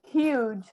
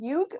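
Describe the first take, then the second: First: The final G is said soft. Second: The final G is said hard. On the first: The speaker calls it right. "the G is soft" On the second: The speaker calls it wrong. "It's not huge"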